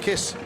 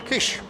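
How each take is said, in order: First: The name is said the anglicized way. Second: The name is said the native way. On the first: "we'll keep calling him Kiss" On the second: "Kish as he pronounces it"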